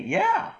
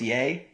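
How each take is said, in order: First: The word is said like 'yeah', rhyming with 'air'. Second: The word is said like 'yay', rhyming with 'day'. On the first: The speaker calls it right. "That's how you pronounce that" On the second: The speaker calls it wrong. "People think it's yea"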